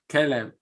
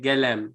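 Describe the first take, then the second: First: The word starts with a hard k sound. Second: The word starts with a voiced g sound. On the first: This is how older Bahraini dialect speakers say it. "In the old dialect of Bahrain, قاف is hard" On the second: This is how some current Bahraini dialect speakers say it. "we will flip qa to another something ga"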